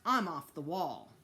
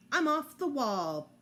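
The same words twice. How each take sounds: First: Said in the usual way. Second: Louder, higher proud chant; proud repeat. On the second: A narrator's reading. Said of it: "Fudge repeated".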